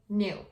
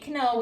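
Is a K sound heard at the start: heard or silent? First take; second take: silent; heard. First: The word starts directly with the N sound. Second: A K sound is spoken before the N. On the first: The speaker calls it right. "we just say no, knew" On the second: The speaker calls it wrong. "we don't say canoe"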